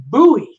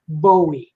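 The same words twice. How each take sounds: First: "Bowie" said BOO-ee; first syllable of Bowie like "boo". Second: "Bowie" said BOH-ee; long O in the first syllable of Bowie. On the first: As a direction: say Bowie to rhyme with gooey. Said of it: "I used to say [name]". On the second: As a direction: say Bowie to rhyme with snowy. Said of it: "I learned better from radio stations". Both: Shown as a demonstration.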